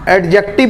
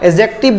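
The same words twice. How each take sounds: First: The d sound is clearly pronounced. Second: The d sound is left silent. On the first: The speaker calls it wrong. "बहुत सारे लोग एडजेक्टिव बोलते हैं, लेकिन एडजेक्टिव नहीं बोला जाता।" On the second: The speaker calls it right. "ए से सीधा उठ के चले जाएंगे जे पे"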